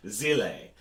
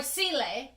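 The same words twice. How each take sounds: First: "Zile" begun with a buzzed z sound; pronunciation demo. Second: "Sile" begun with an s sound; alternative pronunciation. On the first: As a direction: say "Zile" slowly with a voiced z. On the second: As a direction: say "Sile" with a voiceless hissed s. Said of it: "how they want to say words". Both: Shown as a demonstration.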